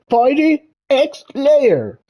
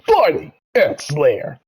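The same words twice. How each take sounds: First: It is said awkwardly, with little energy. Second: It is said with gusto and personality.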